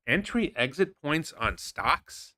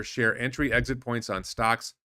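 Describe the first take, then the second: First: Slow, mocking disbelief, rising question; incredulous. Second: Said in the usual way. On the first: Real, not acted. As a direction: drag it out like it's absurd. Mocking repeat of rival's bio. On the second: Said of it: "If you read this".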